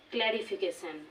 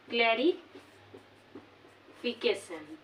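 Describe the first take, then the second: First: Said in the usual way. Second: clarification very slow, long pause between clari and fication; broken into parts. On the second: Shown as a demonstration. Teacher dividing a polysyllable, clarification slowly said as clari, pause, fication. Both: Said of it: "এটি আমরা পাঁচবার".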